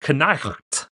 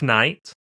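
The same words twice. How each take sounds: First: It has a k sound and a throat sound. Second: It starts with a k sound before n. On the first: This is an even older way the word was probably said. "there's probably a sound that that G H in there made too" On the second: This is how the word was probably said originally. "originally we were probably were saying knight"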